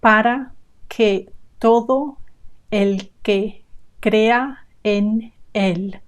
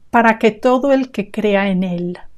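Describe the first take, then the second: First: Each word is said separately with breaks. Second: The words run together like one long word. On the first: The speaker calls it wrong. "one word at a time" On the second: The speaker calls it right. "linking the words together"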